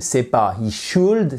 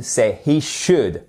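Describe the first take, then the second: First: Should said with a long oo, the wrong way; wrong vowel. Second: Should with a short clipped u, the right way; right vowel. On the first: Demoing the wrong vowel of should to French learners. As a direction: model the mistake: should with a long oo. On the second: Correcting the vowel of should for French learners. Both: Shown as a demonstration.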